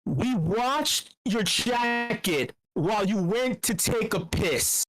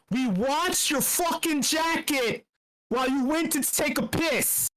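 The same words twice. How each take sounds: First: Slow, weighty reading of the quote; dramatic quote reading. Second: Higher, slow and punchy, leaning on fucking; hyped quote. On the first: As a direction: read it out like a solemn riddle. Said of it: "this quote is this". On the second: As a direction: shout the quote out with relish. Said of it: "which episode?". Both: Shown as a demonstration.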